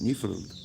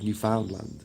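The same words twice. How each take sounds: First: It is pronounced the way locals say it. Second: It is pronounced the way outsiders say it. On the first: The speaker has local knowledge. The speaker calls it right. "that's how I know to pronounce it Newfoundland" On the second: The speaker lacks local knowledge. The speaker calls it wrong. "If someone's not from there, they might call it Newfoundland"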